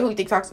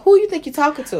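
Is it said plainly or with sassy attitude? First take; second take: plainly; sassy attitude. First: It is said plainly and calmly. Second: It is said with sassy, confrontational attitude.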